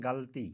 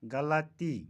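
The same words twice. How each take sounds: First: गलती said ghal-ti; गलती as ghalti; common mispronunciation. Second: गलती said gha-la-ti; गलती as ghalati; correct pronunciation. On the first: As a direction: say गलती in two syllables, no vowel after l. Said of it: "कुछ लोग बोलते हैं". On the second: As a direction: say गलती in three syllables, a after l. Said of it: "का सही तलफ़ुज़". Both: Shown as a demonstration.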